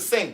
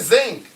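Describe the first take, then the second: First: It starts with an 's' sound. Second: It starts with a 'z' sound. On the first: "not the sink" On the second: "Wrench it in the zinc"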